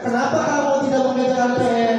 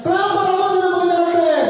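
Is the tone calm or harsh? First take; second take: calm; harsh. First: It is asked in a calm, neutral tone. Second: It is asked in a harsh, scolding tone.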